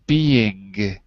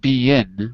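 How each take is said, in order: First: The word ends with a back-tongue ng sound. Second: The word ends with a tongue-tip n sound. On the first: The speaker calls it right. "with the back of your tongue" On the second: The speaker calls it wrong. "it's not being with an N"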